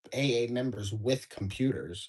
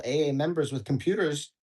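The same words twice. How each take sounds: First: Musing reread. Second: Said in the usual way. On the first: Shown as a demonstration. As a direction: mull the phrase over with a wry point to make. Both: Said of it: "that's everybody pretty much nowadays".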